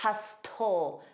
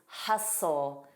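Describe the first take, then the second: First: The T sound in the middle is pronounced. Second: The T sound in the middle is silent. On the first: The speaker calls it wrong. "It is always wrong to say hustle, tull. That is incorrect pronunciation" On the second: The speaker calls it right. "The pronunciation always is hustle"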